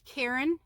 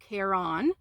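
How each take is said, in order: First: It sounds like the personal name Karen. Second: It sounds different from the name Karen. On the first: This is how the speaker and her family say it. "I pronounce it Karen" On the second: This is how some other people say it. "I've seen people call it Caron"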